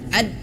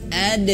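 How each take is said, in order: First: The final d is held and cut short. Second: The final d bounces into a short e. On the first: The speaker calls it wrong. "jangan ditahan. Ad, tidak" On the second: The speaker calls it right. "tapi langsung ade"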